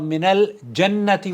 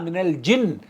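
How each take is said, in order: First: The first vowel of the word is 'a'. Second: The first vowel of the word is 'i'. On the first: It sounds like the word for paradise. The speaker calls it wrong. "हालांकि जन्नत नहीं है वहां" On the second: It refers to the jinn. The speaker calls it right. "जीम के नीचे जेर है"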